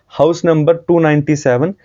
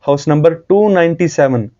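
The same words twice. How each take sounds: The two takes are said the same way.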